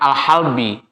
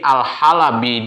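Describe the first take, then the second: First: The l has no vowel after it. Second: The l is followed by a short a vowel. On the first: It names the milk that has been milked. "lamnya itu bisa disukunkan jadi al-halbi" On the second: It names the place where the milking is done. "bifathil lam dengan fathahnya lam"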